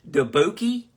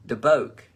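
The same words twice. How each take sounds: First: "Dubuque" tried as "duh-BOH-kee" with a rising end; unsure pronunciation. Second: "Dubuque" said "duh-BOKE", firm and falling; settled pronunciation. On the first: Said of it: "Is that Dubuque?". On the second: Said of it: "how the fuck do you say that?". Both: Real, not acted.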